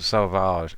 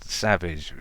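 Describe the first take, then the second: First: It sounds like sausage with a v sound. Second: It sounds like the English word savage. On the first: The speaker calls it right. "sausage with a V" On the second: The speaker calls it wrong. "it's called Savage"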